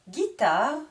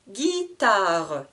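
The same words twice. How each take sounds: First: Said in the usual way. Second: "Guitare" stretched as Gui-ta-re; split into syllables. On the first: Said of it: "je vous répète le vocabulaire de chaque mot". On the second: Shown as a demonstration. Teacher counting three syllables, "Guitare" drawn out with final e. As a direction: sound out all three beats of "Guitare". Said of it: "Trois syllabes".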